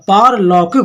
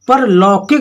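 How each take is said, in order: First: The first vowel is long. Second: The first vowel is short. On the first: The speaker calls it right. "पारलौकिक होता है" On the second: The speaker calls it wrong. "ये परलौकिक नहीं होता"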